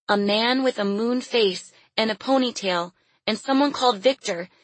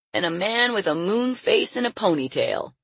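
First: Put-on high child's voice, close to tears; timid little girl. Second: Higher, folksy man's voice; old circus hand. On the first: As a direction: explain haltingly as a small girl. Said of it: "A burning lump filled her throat". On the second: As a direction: relay it to a workmate as old Leon. Old Leon relays the girl's words. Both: A narrator's reading.

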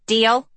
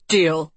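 First: Put-on higher boy voice asking deal; eager rising deal question. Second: Louder, firm falling deal; forceful deal. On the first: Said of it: "Hort beamed". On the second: Acted. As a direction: clamp it shut firmly. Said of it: "Sophie said forcefully".

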